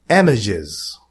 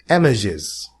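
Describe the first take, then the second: Both takes have the same delivery.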